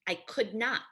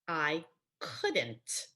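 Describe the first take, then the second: First: The negative is said as two full words. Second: The negative is contracted into one word.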